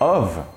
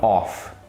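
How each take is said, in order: First: The word ends with a voiced v sound. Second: The word ends with a voiceless f sound. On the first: The speaker calls it right. "A pronúncia correta é of" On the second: The speaker calls it wrong. "não off"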